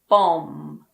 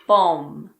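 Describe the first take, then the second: First: The word ends with an m sound. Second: The same.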